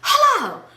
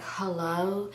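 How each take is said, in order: First: It is screamed very loudly. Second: It is said at a normal volume.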